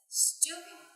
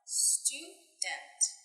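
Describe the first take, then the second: First: The word is said very quickly and compressed. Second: The word is said at an ordinary, careful speed.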